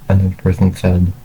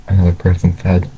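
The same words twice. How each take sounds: The two takes are said the same way.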